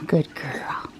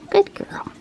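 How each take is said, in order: First: Soft whispered praise to the cat. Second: Higher sing-song praise for the cat; pet talk. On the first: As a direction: breathe it to her gently. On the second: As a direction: lift it up cheerfully for her. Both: Real, not acted.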